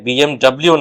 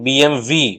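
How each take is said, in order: First: The last letter is said as double-u. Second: The last letter is said as vee. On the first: The speaker calls it wrong. "তাই বিএমডব্লিউ নয়" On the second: The speaker calls it right. "আসল উচ্চারণ তো বিএমভি"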